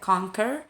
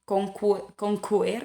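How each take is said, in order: First: The middle consonant is said as a plain k. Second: The middle consonant is said with a w glide. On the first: The speaker calls it right. "ya conquer" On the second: The speaker calls it wrong. "jadi bukan conquer"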